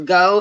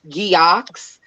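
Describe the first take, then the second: First: It is said as one syllable, ending in o. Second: It is said with two syllables, ending in ks. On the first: The speaker calls it right. "but it is go" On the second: The speaker calls it wrong. "some people might pronounce it Geox"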